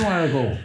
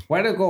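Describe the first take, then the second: First: Put-on Australian accent. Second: Bad Australian accent on "Warrigal". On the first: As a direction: draw "Warrigal" out in a bad Australian accent. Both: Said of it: "worst Australian accent".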